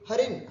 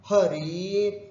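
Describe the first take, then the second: First: The middle i vowel is kept short. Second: The middle i vowel is held long. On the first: The speaker calls it wrong. "हरिन बोल दिया तो गलत हो जाएगा" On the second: The speaker calls it right. "द्वितीय बहुवचन में भी है हरीन, उच्चारण भी हमको वैसे ही करना है"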